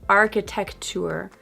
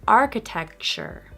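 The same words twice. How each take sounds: First: The C and T sounds are said separately. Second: The C and T sounds blend together. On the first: The speaker calls it wrong. "Not architecture" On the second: The speaker calls it right. "notice how the C and T sounds blend together"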